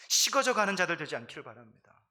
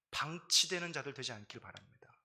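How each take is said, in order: First: 식어져 hit louder, then falling away; stress on 식어져. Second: Said in the usual way. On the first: Shown as a demonstration. Pastor warning the congregation, 식어져 punched louder. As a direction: lean hard on 식어져 and let the rest fall.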